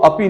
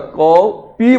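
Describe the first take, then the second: First: The word is said short, without the long vowel. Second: The word is said with a long, two-beat vowel. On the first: It is said for ease of the mouth. The speaker calls it wrong. "मुख सुख के लिए इसको क्या बोल दिया, अपी बोल दिया" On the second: It is the true Sanskrit pronunciation. The speaker calls it right. "दो मात्रा का प्रयोग हो रहा है, इसलिए इसको बोलेंगे क पी"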